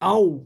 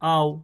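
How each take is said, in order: First: The vowel glide is pronounced hard, not softly. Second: The vowel glide is pronounced softly and gently. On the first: The speaker calls it wrong. "এটা কিন্তু সফটলি হচ্ছে না" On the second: The speaker calls it right. "তাহলে কিন্তু সফটলি উচ্চারণ হচ্ছে"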